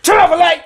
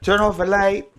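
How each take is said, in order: First: It is said loudly and forcefully. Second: It is said slowly and calmly.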